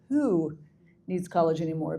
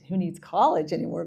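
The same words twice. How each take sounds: First: The word 'who' is strongly emphasized. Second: The word 'who' gets no special emphasis. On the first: The question is about which individual person needs it. The speaker calls it right. "emphasize who needs college anymore" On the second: The question is about college in general. The speaker calls it wrong. "not just who needs college anymore"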